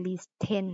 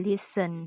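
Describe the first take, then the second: First: Listen said as liss-TEN; mispronounced with T. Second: Listen said as LISS-en; silent T. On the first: Teacher asks why not read it so, listen as liss-ten. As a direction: sound the t in listen, heavy ten. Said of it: "เป็นหยังบ่อ่านว่า listen". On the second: Teacher gives the correct reading, listen with silent t. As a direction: say listen with no t sound. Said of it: "ข้อที่สองอ่านว่า listen". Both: Shown as a demonstration.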